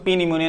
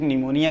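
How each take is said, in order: First: A p sound is said before the n. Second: The word starts directly with the n sound. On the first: The speaker calls it wrong. "हम इसको पी निमोनिया नहीं कहेंगे" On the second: The speaker calls it right. "सिर्फ निमोनिया कहेंगे"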